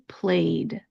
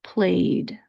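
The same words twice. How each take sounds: First: The ending is a soft voiced D sound. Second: The same.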